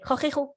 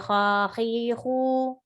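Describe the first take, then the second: First: The syllables are rushed together very quickly. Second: The vowels are stretched out and prolonged. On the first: "That's too fast" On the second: "Don't say khakhihu"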